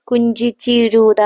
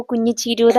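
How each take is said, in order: First: കുഞ്ചിച്ചിരുത drawn out, with "nj" in place of "ny"; imitated mispronunciation. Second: കുഞ്ഞിച്ചിരുത with a true palatal "ny" in the first part; correct pronunciation. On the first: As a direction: imitate classmates stumbling slowly through കുഞ്ചിച്ചിരുത. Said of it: "friends ഒക്കെ വിളിക്കുന്നത്". (കുഞ്ചിച്ചിരുത കൂട്ടുകാരെപ്പോലെ തെറ്റിച്ച്, നീട്ടി ഉച്ചരിച്ച്) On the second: Shown as a demonstration. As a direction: model കുഞ്ഞിച്ചിരുത as kunyi-chiruda. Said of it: "എന്ന് തന്നെ". (കുഞ്ഞിച്ചിരുത ഞ് വ്യക്തമാക്കി ശരിയായി ഉച്ചരിച്ച്)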